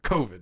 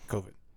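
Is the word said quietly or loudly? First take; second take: loudly; quietly. First: It is said loudly, with more force. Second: It is said quietly, under the breath.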